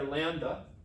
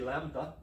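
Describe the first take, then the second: First: The consonant after the m is a plain d. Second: The consonant after the m is a soft th. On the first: The speaker calls it wrong. "He says we're pronouncing it wrong. It's not a duh" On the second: The speaker calls it right. "as my Greek friend would say"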